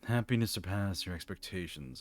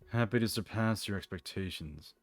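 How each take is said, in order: First: The voice sounds nasal. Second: The voice sounds plain, not nasal. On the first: The speaker calls it right. "I did it more like nasally" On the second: The speaker calls it wrong. "I'm not doing his voice right"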